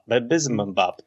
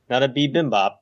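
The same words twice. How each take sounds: First: Bizbimbap with a z sound in place of the first b; made-up bizbimbap. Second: Bibimbap said normally, as the Korean dish; plain bibimbap. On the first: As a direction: stress the silly bizbimbap against bibimbap. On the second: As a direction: say bibimbap the usual way. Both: Shown as a demonstration.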